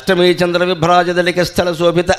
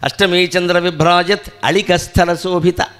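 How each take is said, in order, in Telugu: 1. మొత్తం వాక్యాన్ని ఆపకుండా ఒకేసారి చదవాలి. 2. ఈ వాక్యాన్ని విరామాలతో భాగాలుగా చదవాలి. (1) "మొత్తం చదవాలి" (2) "అలా విడదీసి చదవాలి"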